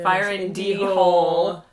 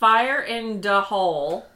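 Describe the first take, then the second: First: The word before 'Hole' sounds like 'dee'. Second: The word before 'Hole' sounds like 'da'. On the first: The speaker calls it right. "It's D Hole, not Da Hole" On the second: The speaker calls it wrong. "I was saying it wrong"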